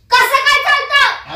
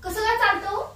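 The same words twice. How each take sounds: First: High, loud, drawn-out demand; angry shout. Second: Said in the usual way. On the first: Acted. Jealous wife confronts husband over girl on bike, angry shout. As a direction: shout the question in outrage.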